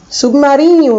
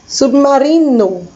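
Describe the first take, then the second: First: It is said with a palatal nh sound. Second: It is said with a plain n sound. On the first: "Em português" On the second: "em espanhol também é submarino"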